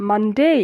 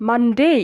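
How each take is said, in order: No difference in how they are said.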